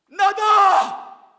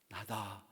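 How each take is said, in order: First: It is said very loudly, almost shouted. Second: It is said quietly and calmly. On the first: The speaker calls it right. "우리가 낼 수 있는 가장 큰 목소리로" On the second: The speaker calls it wrong. "조용히 부르면 안 될 것 같아요"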